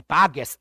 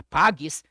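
First: Пагес with a plain e in the last syllable; пагес said with e, not і; wrong form пагес. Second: Пагіс with a clear і in the last syllable; пагіс, stress on па, ending -гіс; correct form пагіс. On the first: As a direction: say пагес, ending -гес. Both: Shown as a demonstration. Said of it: "не пагес, а пагіс".

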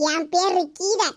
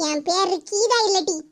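First: Said in the usual way. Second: Geetha slow and stressed; stress on name. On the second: Acted. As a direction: lean on Geetha slowly, falling at the end. (Geetha என்பதை மெதுவாக அழுத்தி இறங்கும் தொனியில்)

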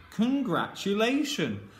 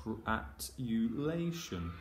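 First: "Congratulation" joined up, higher and drawn out; whole blended word. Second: "Gratulation" in slow, softer separated chunks; blending sounds slowly. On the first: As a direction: say "Congratulation" as one finished word, pitch lifted. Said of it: "put them together into the words". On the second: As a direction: draw "Gratulation" out piece by piece. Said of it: "let's do it together". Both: Shown as a demonstration.

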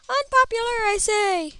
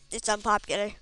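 First: High, loud theatrical declaration; mock proclamation. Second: Said in the usual way. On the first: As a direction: cry it out like a hammy orator. Repeats it as a proclamation.

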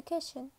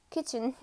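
First: "kitchen" slipped into "kishen"; mispronounced kitchen. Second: Said in the usual way. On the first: Real, not acted. Reader stumbling on "kitchen", said as "kishen". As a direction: say "kitchen" with a sh in the middle. Slip, then corrected with laugh.

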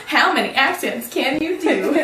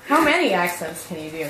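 First: High voice breaking into laughter; laughing question. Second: Said in the usual way. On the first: Real, not acted. Asking a friend about accents, laughing. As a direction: ask it while starting to crack up.

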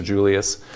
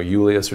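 First: Julius with an initial J sound; English pronunciation. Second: Julius with an initial Y sound; Latin pronunciation. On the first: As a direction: say Julius as JOO-lee-us. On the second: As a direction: say Julius as YOO-lee-us. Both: Shown as a demonstration. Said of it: "depending on how they want to say it".

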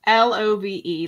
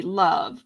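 First: L O V E spelled letter by letter, each letter separate and a bit louder. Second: Said in the usual way. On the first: Shown as a demonstration. Host spells the comment word for viewers, letter by letter. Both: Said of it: "how about".

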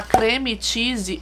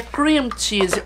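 First: "creme cheese" with Portuguese creme; wrong pronunciation. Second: "cream cheese" said as klim chizi, slowly; "cream" with English ee vowel; English pronunciation. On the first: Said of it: "Porque é cream cheese". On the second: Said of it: "quando a pessoa fala creme cheese". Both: Shown as a demonstration.

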